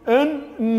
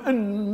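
First: The doubled N is split into two separate sounds. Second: The doubled N is merged into one long sound. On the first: The speaker calls it wrong. "هذا لا يجوز" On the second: The speaker calls it right. "هذا إضغام"

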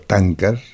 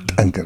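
First: The first syllable is said plainly, without reinforcement. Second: The first syllable is said with forceful reinforcement. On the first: The word has no meaning. The speaker calls it wrong. "No tiene significación" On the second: The word names a thorny mountain plant. The speaker calls it right. "esta sílaba es reforzada"

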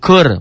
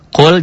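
First: The L merges into the following R sound. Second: The word ends with a clear L sound. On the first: "bunyi lam matinya hilang" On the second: "Kul jadi kur"

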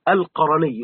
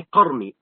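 First: A short vowel follows the r sound. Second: No vowel follows the r sound. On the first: The speaker calls it right. "بالتحريك" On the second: The speaker calls it wrong. "لا تقول القرني"

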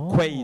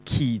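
First: The word sounds like 'kway', with a w sound. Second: The word sounds like 'key', with no w sound. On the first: The speaker calls it wrong. "就唔係讀quay 字嘅" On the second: The speaker calls it right. "原來咧即係呢個字嘅正音係讀個key 字嘅"

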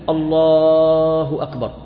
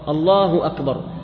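First: The voice is stretched out and prolonged. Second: The voice is kept short without stretching. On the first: The speaker calls it wrong. "يعني لا تقول" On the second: The speaker calls it right. "بل تقول"

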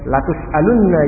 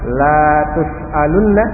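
First: The first vowel after L is short. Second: The first vowel after L is long. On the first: You will surely be asked. "dibaca lam pendek" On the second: You will not be asked. "kalau dibaca lamnya panjang"

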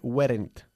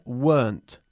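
First: The word is said as two syllables. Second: The word is said as one syllable. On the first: The speaker calls it wrong. "No se dice weren't" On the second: The speaker calls it right. "se pronuncia weren't, una sola sílaba"

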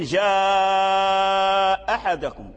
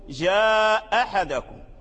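First: The vowel in the first word is held long. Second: The vowel in the first word is kept short. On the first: "تمده تبقيه على حاله كما لو كانت الهمزة محققة" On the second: "وتسقطها وتقرأه بالقصر"

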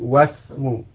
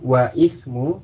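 First: Wa runs straight into the s sound. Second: A glottal stop separates wa from ismu. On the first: The speaker calls it right. "tapi wasmu" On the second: The speaker calls it wrong. "Jadi bukan wa'ismu"

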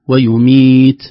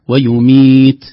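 No difference in how they are said.

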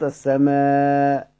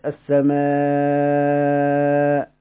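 First: The final long vowel is held a medium time. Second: The final long vowel is held a long time. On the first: "بالمتوسط" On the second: "بالمد السماء كده من غير همزة"

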